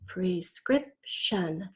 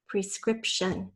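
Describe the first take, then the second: First: "prescription" very slow, in three separate beats; syllable by syllable. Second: Said in the usual way. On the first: Shown as a demonstration. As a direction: pause between the syllables of "prescription". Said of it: "Third syllable". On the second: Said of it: "First, say the whole word".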